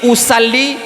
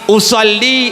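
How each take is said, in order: First: The s in usalli is a plain s. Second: The s in usalli is an emphatic s. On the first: It means I sway. The speaker calls it wrong. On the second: It means I pray. The speaker calls it right.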